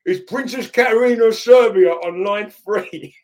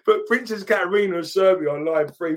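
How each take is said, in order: First: Put-on loud, high, slow London accent announcement; common London accent. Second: Said in the usual way. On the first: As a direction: bellow it like a big London lad. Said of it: "like, a, quite a common, like, London accent".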